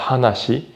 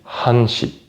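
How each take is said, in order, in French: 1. Le nombre garde sa terminaison complète, trois syllabes. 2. Le nombre est raccourci, ce qui donne deux syllabes. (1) "On ne dit pas hanashi" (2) "on dit hanshi"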